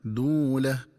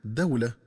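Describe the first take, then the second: First: دولة said "duulah", with damma on the dal and a long oo; long u vowel. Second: دولة said "dawlah", with fatha on the dal; diphthong aw. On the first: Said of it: "فتقرأ بضم الدال مع واو مدية". (دولة بضم الدال وواو مدية) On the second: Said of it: "بفتح الدال مع واو لينة". (دولة بفتح الدال وواو لينة) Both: Shown as a demonstration.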